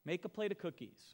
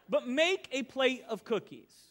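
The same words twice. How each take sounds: First: Said in the usual way. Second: Louder, slower, with a laugh; emphatic repeat. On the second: Shown as a demonstration. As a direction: press the point home, laughing.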